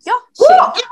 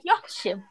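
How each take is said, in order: First: Much higher and louder, an exclaimed "Yo, shit"; shocked outburst. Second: Much softer, a quiet shocked aside; stunned mutter. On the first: Retelling her shock at his insult, high and loud. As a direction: blurt it out high in disbelief. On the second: Stunned by the boyfriend's insult, first reaction very soft. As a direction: let it fall out softly, taken aback. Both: Retold or imitated. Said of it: "Guys, me, I was like".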